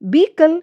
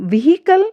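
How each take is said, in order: First: No 'h' sound is heard in the word. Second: An 'h' sound is heard in the word. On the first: The speaker calls it right. "ये हमारा right है, इसमें H silent है" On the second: The speaker calls it wrong. "ये हमारा right wrong है"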